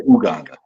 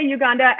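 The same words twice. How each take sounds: First: "Uganda" starting with an OO sound; pronounced OO-ganda. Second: "Uganda" starting with a YOU sound; pronounced YOU-ganda. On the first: Host disputing the Wisconsin excuse, "Uganda" begun with OO. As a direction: say "Uganda" as oo-GAHN-da. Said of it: "In Wisconsin, we say Uganda". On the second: Guest defending Wisconsin usage, "Uganda" begun with YOU. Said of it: "So Wisconsin, we say Uganda". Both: Shown as a demonstration.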